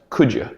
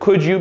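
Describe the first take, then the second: First: The two words are blended into one reduced form. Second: The two words are said separately and fully.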